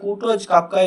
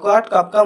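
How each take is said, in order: First: The first name is said like 'Kutz'. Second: The first name is said like 'Kart'.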